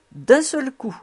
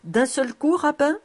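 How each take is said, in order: First: "D'un seul coup." high, louder, falling at the end; firm confirmation. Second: "D'un seul coup, rabbin?" high, rising question; questioning, half-mocking. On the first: Rabbi confirming to Cobus, "coup" falling firmly. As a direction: answer firmly, dropping on "coup". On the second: Cobus querying the rabbi, "coup" rising in teasing question. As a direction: lift "coup" and "rabbin" in mock disbelief. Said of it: "moitié sérieux et moitié railleur". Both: A narrator's reading.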